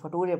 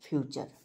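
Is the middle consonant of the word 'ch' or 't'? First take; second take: t; ch. First: It is said like fa-too-ray, with a t sound. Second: It is said like fyoo-cher, with a ch sound. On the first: "अगर कोई इसको फटूरे पढ़ दे रहा है" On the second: "इसको हम लोग क्या पढ़ते हैं"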